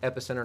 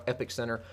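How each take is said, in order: First: It is said as one word, epicenter. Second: It is said as two words, epic center. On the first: The speaker calls it right. "It is Epicenter" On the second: The speaker calls it wrong. "not Epic Center"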